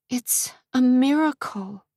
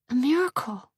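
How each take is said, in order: First: Higher, slow, protective; guard the baby in your words; defensive. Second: Put-on guard the baby in your words; defensive. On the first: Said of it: "defensive of her unborn child". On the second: Repeated softer. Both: A narrator's reading.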